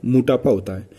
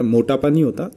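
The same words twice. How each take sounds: First: मोटापा said as "mu-ta-pa", the corrected form; short u in मोटापा. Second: मोटापा with a full "mo" first syllable, the rejected form; long o in मोटापा. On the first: Teacher giving students the correct suffixed form, "mu" in मोटापा. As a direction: shorten the first vowel of मोटापा to "mu", falling tune. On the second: Teacher rejecting a word form for students, "mo" in मोटापा. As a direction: say मोटापा as "mo-ta-pa", questioning rise at the phrase end. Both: Shown as a demonstration.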